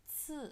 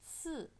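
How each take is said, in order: No difference in how they are said.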